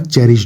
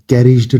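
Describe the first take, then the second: First: The word begins with a ch sound. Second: The word begins with a k sound. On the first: The speaker calls it right. "चेरिज्ड होगा" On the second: The speaker calls it wrong. "यहाँ पर कैरिज्ड नहीं होगा"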